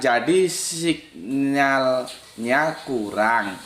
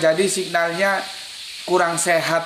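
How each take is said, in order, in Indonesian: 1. Frasanya berhenti dengan jeda setelah 'kurang'. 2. Frasanya langsung berlanjut tanpa jeda. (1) "Begini bacanya ini" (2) "Kalau aku baca lurus begini"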